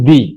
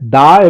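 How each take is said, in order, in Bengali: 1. স্বরধ্বনিটি একটি দীর্ঘ 'ee' ধ্বনি। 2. স্বরধ্বনিটি একটি ছোট, নিরপেক্ষ 'uh' ধ্বনি। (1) "টি এইচ ই এটা দুই ধরনের উচ্চারণ হয়, দা এবং দি" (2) "টি এইচ ই এটা দুই ধরনের উচ্চারণ হয়, দা এবং দি"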